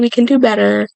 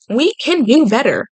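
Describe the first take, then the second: First: It sounds dismissive and insincere. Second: It sounds sincere and earnest.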